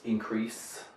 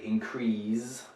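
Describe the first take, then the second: First: The last consonant is an S sound. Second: The last consonant is a Z sound. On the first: The speaker calls it right. "It's a S sound" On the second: The speaker calls it wrong. "put a Z in here"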